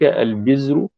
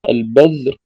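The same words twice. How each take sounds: First: The middle consonant is a 'z' sound. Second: The middle consonant is a 'dh' sound. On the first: "وكذلك البذر بالزاي" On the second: "وهي تسمى البذر بالذال"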